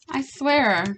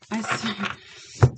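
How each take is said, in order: First: Said in the usual way. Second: Whispered. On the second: Real, not acted. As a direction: whisper the repeat under her breath. Apologizing after swearing on camera.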